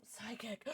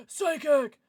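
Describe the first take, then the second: First: Softly tentative; quiet guess. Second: Gasp, then loud and higher; loud, eager burst; excited guess. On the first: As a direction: try the guess out under your breath. Murmured guess, then said again excitedly. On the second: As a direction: call it out with sudden conviction. Second, excited take of the guess. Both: Real, not acted.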